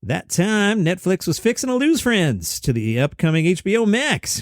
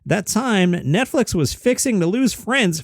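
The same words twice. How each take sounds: First: Lightly hammed-up Southern cartoon blowhard; a hint of mock Southern bluster; Foghorn Leghorn. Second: Said in the usual way. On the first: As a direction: reread it as a folksy cartoon rooster. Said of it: "Foghorn Leghorn?".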